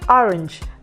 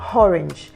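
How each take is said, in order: First: The word starts directly with the vowel. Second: The word starts with an h sound. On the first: The speaker calls it right. "you have orange" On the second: The speaker calls it wrong. "and not orange"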